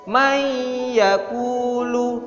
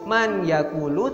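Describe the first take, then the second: First: The n merges into a held, doubled y. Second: The n is pronounced clearly before the y. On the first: "tapi jadi mayyakulu, ditahan juga" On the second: "awalnya sebenarnya itu man yakulu"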